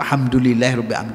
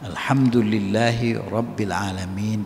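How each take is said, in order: First: The phrase is recited quickly and rushed. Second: The phrase is recited slowly and carefully. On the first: Letters are dropped and the meaning can change. The speaker calls it wrong. "kalau kita buru-buru" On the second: Every letter gets its due. The speaker calls it right. "dibaca pelan-pelan"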